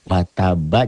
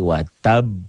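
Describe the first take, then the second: First: The word ends on a full final vowel. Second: The word ends on a strongly bounced b. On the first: The reading continues on without stopping. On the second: The reading stops on this word.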